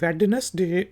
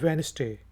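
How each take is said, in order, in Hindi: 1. हर अक्षर बोला जाता है, पहले d सहित। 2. पहला d और बीच का स्वर छोड़ दिया जाता है। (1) "इसको हम वेडनेसडे कहते हैं बहुत से लोग" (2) "लेकिन ये होता है वेनसडे"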